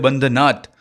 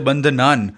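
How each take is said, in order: First: The word ends with a t sound. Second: The word ends with an n sound. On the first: This is the form used when explaining the meaning. "अर्थात समझते समय इसे बंधनात नाथ पढ़ना है" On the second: This is the form used when chanting the mantra. "मंत्र उच्चारण के समय इसे बंधनान नान पढ़ना है"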